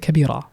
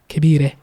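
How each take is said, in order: First: It ends with an open a vowel. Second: It ends with a raised eh vowel.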